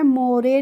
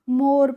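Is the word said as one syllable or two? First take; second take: Two; One. First: The word is said with two syllables. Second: The word is said with one syllable. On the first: The speaker calls it wrong. "मोरे नहीं पढ़ना होता है" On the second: The speaker calls it right. "मोर पढ़ना होता है"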